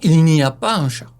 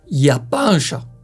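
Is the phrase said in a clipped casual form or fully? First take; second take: full; clipped. First: It is said fully, with every word pronounced. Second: It is said in a clipped, casual spoken form.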